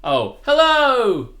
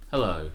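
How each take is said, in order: First: High, loud, slow drawn-out hello; passionate hello. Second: Lower, deflated hello; sorrowful hello. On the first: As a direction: greet with big passion. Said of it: "the other way round for me". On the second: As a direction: let the greeting sag with sorrow. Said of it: "that was kinda sorrowful". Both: Shown as a demonstration.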